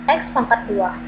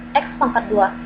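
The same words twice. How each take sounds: The two takes are said the same way.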